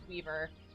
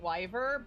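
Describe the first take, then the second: First: The first vowel sounds like 'ee'. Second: The first vowel sounds like 'eye'. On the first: The speaker calls it right. "but it's Weaver" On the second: The speaker calls it wrong. "I was pronouncing it Wyver"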